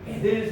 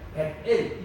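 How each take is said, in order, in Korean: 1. t 소리는 'del'에 이어져 붙습니다. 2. t 소리는 'el' 앞에서 멈춰 있습니다. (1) "이걸 붙여가지고 베델하는" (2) "이게 정확한 어, 발음이에요"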